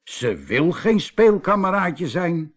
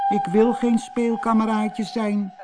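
First: Slow, higher, amazed echo; astonished. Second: High, tearful little mermaid voice; acted sobbing protest, pitched high. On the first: Husband echoes the mermaid to his wife, astonished. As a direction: repeat it slowly in amazement. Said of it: "keken elkaar verbaasd aan". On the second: Little mermaid refuses to be a playmate, sobbing. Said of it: "snikte ze". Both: A narrator's reading.

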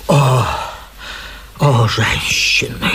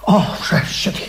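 First: Low, slow whisper from under the bed; whispered sigh. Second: Said in the usual way. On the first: Acted. Hidden man repeats from under bed.

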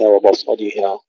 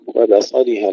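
First: وبصلها with a thick "bo" for ب; wrongly heavy ba. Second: وبصلها with a light b before ص; thin ba. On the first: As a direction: mistaken recitation of وبصلها, ba darkened. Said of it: "ليس". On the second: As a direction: recite وبصلها keeping ب thin. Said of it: "كذلك". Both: Shown as a demonstration.

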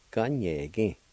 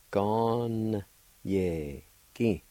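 First: Said in the usual way. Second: Drawn-out syllables with gaps between; syllable-by-syllable pronunciation. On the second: Shown as a demonstration. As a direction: sound out each syllable slowly. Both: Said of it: "pronounce the N sound with the G A like this".

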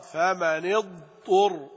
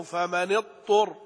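First: Slow, اضطر with a distinct ض before the ط; clear ض. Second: اضطر said as tur, with no ض heard; wrong, ض swallowed. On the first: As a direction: sound the ض fully in فمن اضطر. (بيان الضاد بوضوح) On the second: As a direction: slur the ض away in فمن اضطر. (نطق خاطئ تُدغم فيه الضاد) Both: Shown as a demonstration. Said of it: "لا، لا بد من بيان الضاد".

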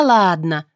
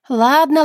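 First: Second ладно dropped back down, calmer; settling repeat. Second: High, loud Ладно thrown up fast; conciliatory exclamation. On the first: (спокойнее, тише «ладно») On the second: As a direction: exclaim Ладно with raised hands. (громкое высокое «Ладно») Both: A narrator's reading. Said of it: "воскликнула, примирительно вскинув ладони".

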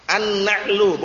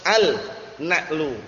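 First: "An-na'lu" with doubled n and no l; "An-na'lu" as one joined word; silent lam. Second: Slow "al-na'lu", split after the l; drawn-out unmerged article in "al-na'lu"; wrong clear al. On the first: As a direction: go straight into a held n in "An-na'lu". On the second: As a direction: say "al", break, then "na'lu". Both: Shown as a demonstration.

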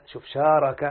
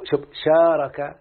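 First: Said in the usual way. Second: "شارك" spelled out slowly, each syllable drawn out; slow drawn-out demo. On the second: Shown as a demonstration. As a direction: stretch out "شارك" like a teacher. (نطق "شارك" ببطء وتمهل)

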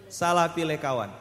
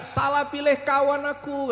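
First: Said in the usual way. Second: Higher, pleading cry of the drum skin; mock complaint shout. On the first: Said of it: "Apa katanya?". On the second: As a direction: wail it like a wronged drum. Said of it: "dia teriak-teriak".

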